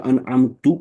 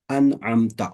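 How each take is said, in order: First: انعمت with a final "tu" sound, the mistaken reading; wrong Arabic ending. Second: انعمت ending in a short "ta", the correct reading; correct Arabic ending. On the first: Teacher showing students the wrong reading, mild mock mistake. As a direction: say انعمت ending in "tu", as a careless reader would. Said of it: "تو مطلب جن پہ میں نے انعام عطا کیا". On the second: Teacher showing students the correct reading, carefully pronounced. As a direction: say انعمت with the final "ta" sound, the right way. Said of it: "میں جس ایگزامپلز دے رہا ہوں". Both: Shown as a demonstration.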